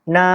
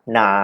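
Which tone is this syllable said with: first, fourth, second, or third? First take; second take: first; third. First: The syllable is said with the first tone. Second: The syllable is said with the third tone. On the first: "Nada satu"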